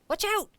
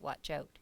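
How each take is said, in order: First: It is yelled loudly and forcefully. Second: It is said at a calm, normal loudness. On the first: The speaker calls it right. "You'd yell it" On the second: The speaker calls it wrong. "You wouldn't just say"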